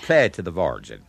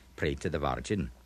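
First: It has a curled-back Dublin R. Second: It has a Scottish-like Cork R.

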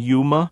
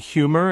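First: The word begins with a y sound, no h. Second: The word begins with a clear h sound. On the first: "that H disappears before the Y sound" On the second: "instead of"

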